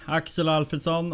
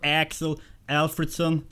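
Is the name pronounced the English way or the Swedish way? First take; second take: Swedish; English. First: The name is said with a Swedish pronunciation. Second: The name is said with an English pronunciation.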